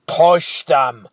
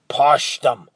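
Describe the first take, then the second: First: Louder, hard cold order; icy command. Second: Louder, forceful push on PUSH; a sharp urgent order to the boy; hissed command. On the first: Giant repeating his order, cold and forceful. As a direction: say it like ice, no patience left. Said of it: "The giant's voice was colder than the night". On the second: Giant ordering Leo at the bars, forceful hiss. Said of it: "hissed the giant". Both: Acted.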